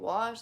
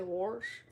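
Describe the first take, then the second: First: Said in the usual way. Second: 'wash' with an r, like 'worsh'; family dialect pronunciation. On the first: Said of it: "Instead of saying wash". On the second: Retold or imitated. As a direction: put an r before the sh in 'wash'. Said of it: "they say wash".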